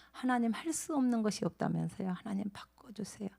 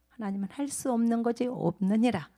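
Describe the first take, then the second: First: 하나님, 할 수 whispered softly as a plea; hushed pleading prayer to God. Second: Said in the usual way. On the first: Acted. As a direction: breathe the prayer in a hush.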